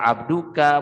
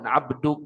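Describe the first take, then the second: First: The word ends with a final vowel sound. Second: The word ends on a consonant, final vowel dropped. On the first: The word is read in full, continuing on. "boleh dibaca abduka" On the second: The reader stops and pauses on this word. "boleh diwakafkan abduk"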